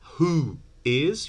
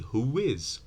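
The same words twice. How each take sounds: First: The two words are said separately, without a glide. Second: A w sound links the two words together.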